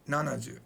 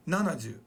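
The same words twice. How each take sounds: The two takes are said the same way.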